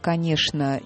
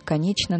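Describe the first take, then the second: First: It is said in the old Moscow manner. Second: It is said in the Petersburg manner. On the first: "по-нашему, по-московски" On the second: "а в Петербурге говорили"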